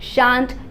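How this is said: It is said with a British English vowel. "शांट UK English में"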